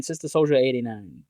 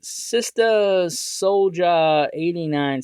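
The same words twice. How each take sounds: First: Said in the usual way. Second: "Sister Soldier eighty-nine" sounded out syllable by syllable; slow careful reading. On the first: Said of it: "butcher this username". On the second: Shown as a demonstration. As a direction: read the unfamiliar username slowly and carefully. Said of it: "gonna probably butcher this username".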